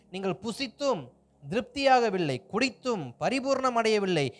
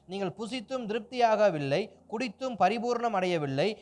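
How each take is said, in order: The two takes are said the same way.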